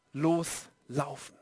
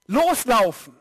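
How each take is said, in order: First: Loslaufen drawn out slow, much lower and softer; slow low quiet. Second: Loslaufen said firmly, falling at the end; punchy call. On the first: Preacher lets the word settle on the congregation, slow and hushed. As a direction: let loslaufen sink down slowly and quietly. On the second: Preacher urging the congregation, loslaufen said firmly. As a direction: give loslaufen as a clear command. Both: Shown as a demonstration.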